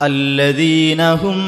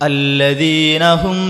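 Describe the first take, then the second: Both takes have the same delivery.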